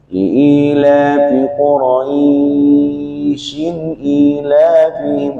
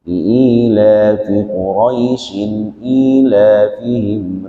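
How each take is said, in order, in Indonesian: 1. Diftong ai dibaca panjang di tengah kalimat. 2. Diftong ai dibaca pendek di tengah kalimat. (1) "enggak boleh" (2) "dia biasa bacanya"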